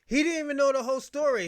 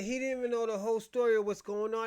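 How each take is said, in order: First: Louder, higher, fast outburst; heated outburst. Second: Said in the usual way. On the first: Real, not acted. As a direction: snap it out in frustration. Angry rant about documentary.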